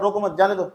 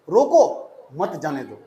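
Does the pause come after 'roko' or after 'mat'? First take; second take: after mat; after roko. First: The pause comes after the second word. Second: The pause comes after the first word. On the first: Do not stop the person; let them go. "इसका मतलब क्या, रोको मत जाने दो, जाओ जाओ" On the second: Stop the person; do not let them go. "Coma लगा दिया। अब पढ़ो"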